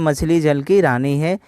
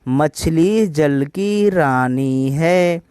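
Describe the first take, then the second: First: It is read in a plain, ordinary way. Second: It is read with a strong, regular beat. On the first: "मैं तो एक generally आपको पढ़ के सुनाया।" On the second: "हम इसको टीच ऐसे करेंगे"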